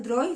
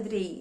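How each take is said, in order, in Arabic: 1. الحرف المتحرك يُنطق مثل 'eye'. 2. الحرف المتحرك يُنطق مثل 'ee'. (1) "في ناس بتقولها دراي" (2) "في ناس بتقولها دري"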